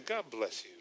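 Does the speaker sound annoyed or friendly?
annoyed. The voice sounds annoyed and resentful. Displeasure is hidden behind the blessing. "I'm upset about it. And I can't curse him out"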